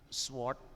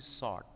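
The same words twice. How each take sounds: First: The word is said with a W sound. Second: The word is said without a W sound. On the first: The speaker calls it wrong. "Bukan sword" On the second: The speaker calls it right. "tapi sword ya"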